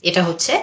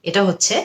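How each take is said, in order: The two takes are said the same way.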